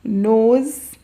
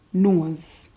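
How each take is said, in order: First: Said in the usual way. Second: "nose" said "nooz", lower; patois nose. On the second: Shown as a demonstration. Teaching viewers the Jamaican patois way to say nose. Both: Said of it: "in patois".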